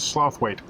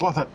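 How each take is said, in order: First: The name ends in a full 'wait' sound. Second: The name ends in a short 'it' sound. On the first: This is how the name is written. "but it says Slothwaite" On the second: This is how the name is actually said. "it's pronounced Slothit"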